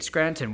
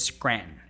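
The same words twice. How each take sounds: First: Each syllable and the t are clearly enunciated. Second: The t is swallowed and the ending reduced. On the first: This is the careful, corrected way. The speaker calls it right. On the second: This is how locals say the name. The speaker calls it wrong. "everybody from there says Scranton"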